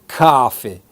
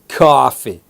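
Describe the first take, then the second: The two takes are said the same way.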